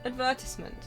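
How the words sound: It is said the British English way. "In English"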